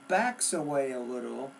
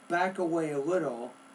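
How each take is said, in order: First: The verb is said with a final s sound. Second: The verb is said without a final s sound. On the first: The speaker calls it right. "Here's what I say" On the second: The speaker calls it wrong. "you said, ... you're not pronouncing the S ending"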